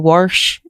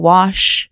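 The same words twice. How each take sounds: First: The word has a regional Appalachian pronunciation. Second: The word has a standard general pronunciation. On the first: This is how the grandfather said it. "he would say wash" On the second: This is how it is usually said. "instead of wash"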